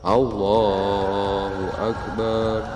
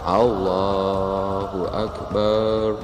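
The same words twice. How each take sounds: No difference in how they are said.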